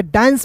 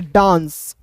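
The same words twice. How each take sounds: First: "डांस" said "dains", with a short front ae vowel; "डांस" read as dains, the questioned way; alternative reading demo. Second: "डांस" said "daans", with a long open aa; "डांस" slowly, with long aa and nasal n; taught reading demo. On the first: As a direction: use the ae of cat in "डांस". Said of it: "यहाँ पे डांस पढ़ सकते कि नहीं". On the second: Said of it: "इसे पढ़ेंगे डांस". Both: Shown as a demonstration.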